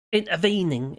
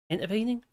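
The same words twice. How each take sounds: First: Said in the usual way. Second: "Intervening" softer, with a rising question tune; "Intervening" said tentatively, as if checking the word. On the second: Real, not acted. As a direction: query the word "Intervening", voice lifting at the end. Queries own choice of word.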